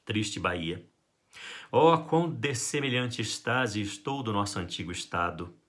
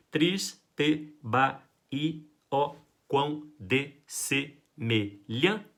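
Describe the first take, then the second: First: "Triste Bahia" read as a flowing line of verse; poem reading. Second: "Triste Bahia, ó quão dessemelhante" split into beats, very slow with pauses; scanning syllables. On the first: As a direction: recite the sonnet smoothly. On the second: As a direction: count the poetic syllables out slowly. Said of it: "Quantas sílabas poéticas vão ter?". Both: Shown as a demonstration.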